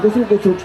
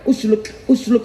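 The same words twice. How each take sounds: First: It is said fast, blurring toward sluku. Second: It is said at a slow, careful pace.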